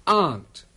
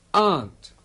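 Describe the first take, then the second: The two takes are said the same way.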